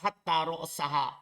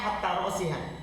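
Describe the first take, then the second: First: The last word is said with an a vowel. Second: The last word is said with an i vowel. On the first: The head was eaten too, in no set order. "bin nasbi" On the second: The head was eaten last, as the end point. "kalau huruf jar ... Kalau dibaca rosiha"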